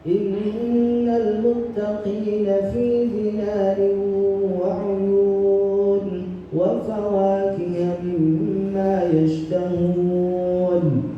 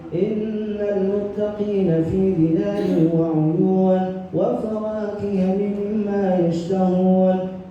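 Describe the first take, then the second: First: It is recited at a medium speed. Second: It is recited quickly, keeping long vowels distinct. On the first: This pace suits leading congregational prayer. "bacaan dengan kecepatan sedang" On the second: This pace suits reviewing memorized passages quickly. "ini lebih cepat dari yang kedua tadi"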